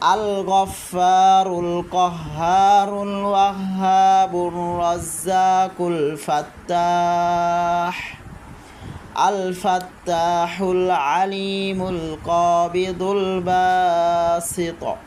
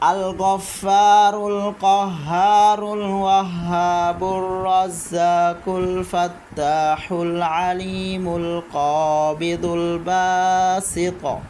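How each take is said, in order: First: It pauses for breath after one name midway. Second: All names run together without any pause.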